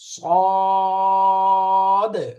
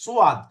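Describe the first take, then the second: First: A thick s with no glide, lips unrounded. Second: The s is followed by a w-like glide. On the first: The speaker calls it right. "সদটা মোটা করে, সদ, এরকম" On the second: The speaker calls it wrong. "আসলে এরকম না"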